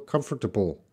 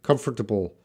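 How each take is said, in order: No difference in how they are said.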